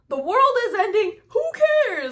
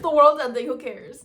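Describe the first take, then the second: First: It sounds cheerful and carefree. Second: It sounds resigned and defeated.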